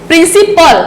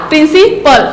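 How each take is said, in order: Both takes have the same delivery.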